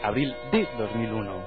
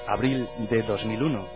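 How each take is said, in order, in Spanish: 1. El año va después de un 'de' separado y enfatizado. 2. El año va después de un 'del' átono, sin énfasis. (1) "dicen abril de 2001, como recalcando" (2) "no suelen decir"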